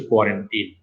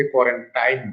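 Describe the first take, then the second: First: Put-on কোয়ারেন্টিন ending in "teen", with an "ee" vowel; correct pronunciation. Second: কোয়ারেন্টাইন ending in a long "tain", rhyming with "line"; common variant pronunciation. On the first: Teacher giving students the proper form, কোয়ারেন্টিন with a "teen" ending. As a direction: say কোয়ারেন্টিন so the last syllable rhymes with "seen". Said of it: "শব্দটার সঠিক উচ্চারণ হচ্ছে".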